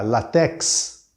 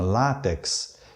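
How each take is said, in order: First: The stress is on the last syllable. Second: The stress is on the first syllable. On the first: The speaker calls it wrong. "É mesmo que dizer" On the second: The speaker calls it right. "A sílaba tônica é a penúltima"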